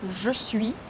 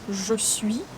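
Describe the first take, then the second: No difference in how they are said.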